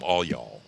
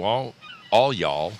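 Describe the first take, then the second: First: Said in the usual way. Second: Louder, drawn-out Texan all y'all. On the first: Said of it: "That means everybody in the room". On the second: Shown as a demonstration. Host showing chat the Texan way to say it, louder. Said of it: "is plural possessive if you are a Texan".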